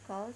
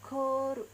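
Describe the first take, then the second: First: It is said as the English word. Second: It is said as Japanese syllables with long vowel. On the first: "ada kata call, call seperti ini" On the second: "jika ditulis ke katakana dia akan menjadi ko"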